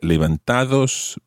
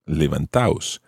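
First: A d sound is heard before the final syllable. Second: No d sound is heard before the final syllable. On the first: The speaker calls it wrong. "you take out the D, and levantados becomes levantaos" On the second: The speaker calls it right. "levantados becomes levantaos"

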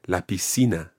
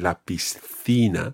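First: It is said with a Latin American Spanish pronunciation. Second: It is said with a European Spanish pronunciation. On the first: "another pronunciation point about Latin American Spanish ... but La Piscina" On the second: "you wouldn't say La Piscina"

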